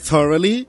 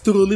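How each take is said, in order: First: The word is said in full as 'thoroughly'. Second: The word is shortened to sound like 'truly'. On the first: The speaker calls it right. "eu consigo copiar" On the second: The speaker calls it wrong. "se eu sei falar certo"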